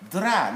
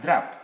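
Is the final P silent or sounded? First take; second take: silent; sounded. First: The final P is not pronounced. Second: The final P is pronounced. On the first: The speaker calls it right. "The silent form of letter P is at the end of words" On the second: The speaker calls it wrong.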